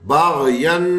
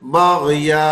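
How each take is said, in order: First: The word ends with an n sound. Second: The word ends with a long a vowel. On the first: "अब दो जबर आ गए" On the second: "एक जबर पढ़ेंगे और अलिफ मिला देंगे"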